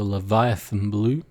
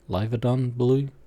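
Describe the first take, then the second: First: The name is said like the word Leviathan. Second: The name is said as Leviadon, ending in don. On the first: The speaker calls it wrong. "I think I may have just said that wrong" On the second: The speaker calls it right.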